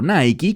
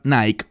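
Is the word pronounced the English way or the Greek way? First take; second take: Greek; English. First: It is pronounced the Greek way. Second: It is pronounced the English brand way.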